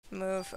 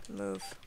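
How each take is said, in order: First: Said in the usual way. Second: Deep, soft growled "move"; low mock command. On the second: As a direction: drop the voice way down on "move".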